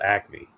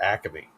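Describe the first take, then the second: First: No extra vowel is inserted in the middle. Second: An extra vowel is inserted in the middle. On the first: This is the usual name. "we all know it's called Acme" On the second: This is how the older generation said it. "They put an extra A in there"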